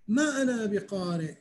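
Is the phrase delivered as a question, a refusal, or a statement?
statement. It is said as a plain, flat statement. I do not know how to read. "يعني أنا ما أعرف أقرأ"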